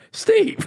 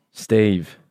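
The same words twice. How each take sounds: First: Steve sung out very high in a mock doting mum voice; hammed-up new mum cooing the name Steve, far higher; mother naming baby. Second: Geezer Steve. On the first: Mother looking at her newborn and cooing Steve, mock high. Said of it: "their mother ever looked at them and went". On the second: Pretend. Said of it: "stereotypical geezer name".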